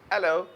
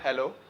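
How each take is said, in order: First: The word starts without an h sound. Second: The word starts with an audible h sound. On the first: "एच को silent करते हैं British हमेशा" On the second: "not"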